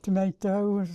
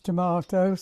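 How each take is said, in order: First: It is said with an American pronunciation. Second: It is said with a British pronunciation. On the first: This is how Americans say it. "instead of tomatoes" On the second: This is how English visitors say it. "how we called tomatoes tomatoes"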